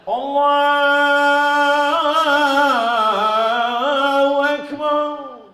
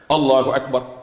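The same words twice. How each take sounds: First: It is drawn out long. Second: It is said short and quick.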